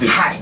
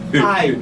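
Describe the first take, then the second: First: The word begins with an added h sound. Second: The word begins with a plain vowel. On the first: The speaker calls it wrong. "not hi. H syndrome" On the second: The speaker calls it right. "I pronounce the I well"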